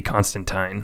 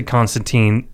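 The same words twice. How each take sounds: First: "Constantine" ending like "tine"; comics pronunciation. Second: Put-on "Constantine" ending like "teen"; movie pronunciation. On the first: Host gives the comics' way, "Constantine" ending to rhyme with "fine". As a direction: say "Constantine" with a long i in the last syllable. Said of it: "it's supposed to be Constantine". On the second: Host gives the film's way, "Constantine" ending to rhyme with "seen". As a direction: say "Constantine" with a long ee in the last syllable. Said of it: "in the movie they pronounce it Constantine". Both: Shown as a demonstration.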